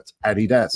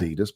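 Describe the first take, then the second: First: The stress is on the first syllable. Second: The stress is on the second syllable. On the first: The speaker calls it right. "So it's Adi Dazzler. It's Adidas" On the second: The speaker calls it wrong. "it isn't Adidas"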